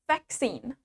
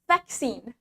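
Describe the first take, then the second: Both takes have the same delivery.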